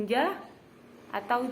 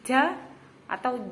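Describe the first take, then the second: Both takes have the same delivery.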